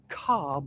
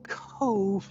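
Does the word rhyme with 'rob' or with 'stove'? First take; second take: rob; stove. First: The word has a short vowel rhyming with 'rob'. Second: The word has a long vowel rhyming with 'stove'. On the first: The speaker calls it wrong. "by American English rules it would be pronounced cob, like corn on the cob" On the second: The speaker calls it right. "it's actually cove, like a marina"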